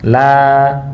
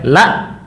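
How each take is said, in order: First: The vowel is held long and smooth. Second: The vowel is pressed hard and cut off. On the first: The speaker calls it right. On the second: The speaker calls it wrong.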